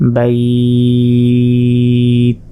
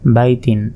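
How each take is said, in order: First: The word ends without the final vowel ending. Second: The word ends with a final vowel ending.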